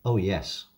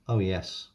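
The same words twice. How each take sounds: The two takes are said the same way.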